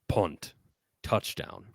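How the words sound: It is read in a dramatic Dungeon Master voice.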